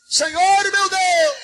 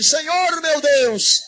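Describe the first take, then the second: First: High, drawn-out fervent cry; full-voiced prayer shout. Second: Slow, drawn-out raised cry; shouted prayer cry. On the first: Pastor urging the church to shout with faith, high drawn-out cry. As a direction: cry it out higher to pull the crowd along. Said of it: "Grita comigo". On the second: Pastor showing the church how to cry out, drawn-out call. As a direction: call it out for the crowd to echo. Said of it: "Grita comigo assim". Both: Shown as a demonstration.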